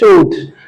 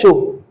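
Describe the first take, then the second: First: The final D sound is pronounced. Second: The final D sound is silent. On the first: The speaker calls it wrong. "That pronunciation is wrong" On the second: The speaker calls it right. "people just express it as il fait chaud"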